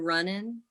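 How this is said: The ending is said with a Southern accent. "instead of saying like in the South"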